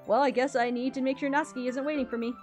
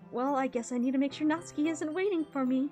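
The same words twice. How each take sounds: First: It is read in the intended character voice. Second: It is read in a mismatched character voice.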